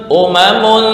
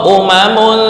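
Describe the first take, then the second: Both takes have the same delivery.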